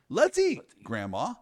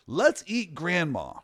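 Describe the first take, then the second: First: A clear pause comes between 'eat' and 'grandma'. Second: 'Eat' runs straight into 'grandma' with no pause. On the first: Grandma is being invited to eat. The speaker calls it right. "if you throw a comma in there" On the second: Grandma is the thing to be eaten. The speaker calls it wrong. "that sounds pretty bad, doesn't it?"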